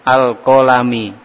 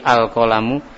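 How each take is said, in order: First: The word ends with an 'i' vowel. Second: The word ends with a 'u' vowel. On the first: The speaker calls it wrong. "pakai kasroh ... amat sangat fatal salahnya" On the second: The speaker calls it right. "al-kolamu itu dibaca dhommah"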